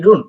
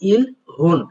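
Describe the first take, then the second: First: It is linked smoothly with no h, like irun. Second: It is split in two with a clear h sound. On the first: The speaker calls it right. "শোনা যায় কি? ইরুন।" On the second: The speaker calls it wrong. "অনেকে উচ্চারণ করেন ইল, হুন। বাট এটা আসলে সঠিক না।"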